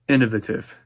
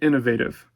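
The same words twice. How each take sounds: First: The word is said with a British pronunciation. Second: The word is said with a non-British pronunciation. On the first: "That's the British pronunciation" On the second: "I meant innovative"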